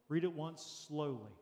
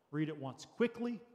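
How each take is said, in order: First: Slow, drawn-out SLOWLY. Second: Said briskly, lifting on QUICKLY. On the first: Pastor showing congregation how to read a verse, slowly. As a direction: stretch the words out unhurriedly. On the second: Pastor showing congregation how to read a verse, quickly. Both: Shown as a demonstration.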